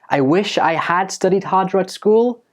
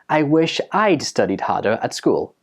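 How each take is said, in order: First: "I had" is said as two full words. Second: "I had" is contracted to one syllable. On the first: The speaker calls it wrong. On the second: The speaker calls it right.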